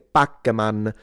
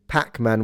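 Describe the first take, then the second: First: The first P has no puff of air. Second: The first P has a puff of air. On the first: "I would say Pac-Man" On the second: "instead of Pac-Man with a P"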